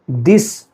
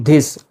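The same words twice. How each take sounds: First: "this" as dis, not dhis; correct this. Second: "this" with a breathy aspirated dh; "this" with a puff of air on the th; wrong this. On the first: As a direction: say "this" with a plain dental th, no puff of air. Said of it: "you have to pronounce it as this". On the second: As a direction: say "this" as dhis. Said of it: "not this". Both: Shown as a demonstration.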